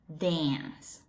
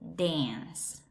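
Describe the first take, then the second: First: It is said in an American English accent. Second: It is said in an American English accent.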